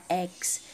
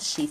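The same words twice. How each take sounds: First: It begins with a vowel sound. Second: It begins with a consonant sound. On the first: The speaker calls it right. "começa com a letra E, o som X" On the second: The speaker calls it wrong. "Você não fala X"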